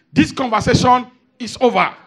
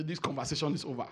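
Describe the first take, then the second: First: Loud, curt mock dismissal; dismissive man. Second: Quieter, quicker mock dismissal; soft mock dismissal. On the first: Preacher imitating men ending a conversation, loud and curt. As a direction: shut the talk down hard. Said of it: "you hear the men say". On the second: Preacher softly repeating the dismissive line, quick. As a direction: toss it off softly.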